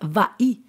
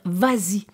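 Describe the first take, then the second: First: No z sound links the verb to the vowel. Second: A z sound links the verb to the vowel. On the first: The speaker calls it wrong. "On ne va pas dire va-y" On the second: The speaker calls it right. "je dois mettre le S, on l'entend très bien"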